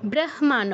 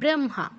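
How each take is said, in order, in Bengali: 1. h ধ্বনিটি m ধ্বনির আগে আসে। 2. m ধ্বনিটি h ধ্বনির আগে আসে। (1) "ব্রহ্মা নয়" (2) "অনুনাসিক্য বর্ণটা আগে উচ্চারিত হয়"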